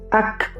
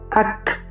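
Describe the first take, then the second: First: The final k is released with audible air. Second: The final k is released with audible air.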